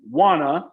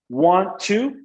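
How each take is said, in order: First: The two words blend into wanna. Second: Both words are said in full.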